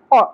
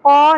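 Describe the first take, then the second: First: The vowel is kept short. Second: The vowel is stretched out long. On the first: The speaker calls it right. "زبر کو زیادہ نہیں کھینچیں گے" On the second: The speaker calls it wrong. "قو نہیں پڑھنا"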